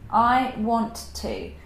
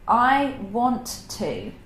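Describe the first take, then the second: No difference in how they are said.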